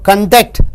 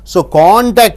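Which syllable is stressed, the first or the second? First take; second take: second; first. First: The stress is on the second syllable. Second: The stress is on the first syllable. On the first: It is an action. "when it comes as verb" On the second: It names a thing. "when you stress on con, it is a, a character"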